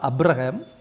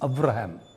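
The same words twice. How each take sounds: First: The middle consonant is a b sound. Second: The middle consonant is a v sound. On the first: The speaker calls it wrong. "It's not அப்ரஹாம்" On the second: The speaker calls it right. "It is அப்ரஹாம்"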